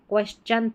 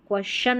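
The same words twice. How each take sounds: First: The word ends with a 'chun' sound. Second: The word ends with a 'shun' sound. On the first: The speaker calls it right. "क्वेश्चन पढ़ना है, चन चना वाला चन" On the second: The speaker calls it wrong. "क्वेश्चन नहीं पढ़ना है"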